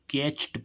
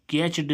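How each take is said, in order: First: कैच्ड ending in a sharp t sound, ketcht; right reading of caught. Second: कैच्ड with a voiced d at the end, ketchd; wrong reading of caught. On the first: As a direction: say कैच्ड with a short voiceless t at the end. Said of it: "क्या पढ़ेंगे". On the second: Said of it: "कैच्ड नहीं पढ़ेंगे". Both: Shown as a demonstration.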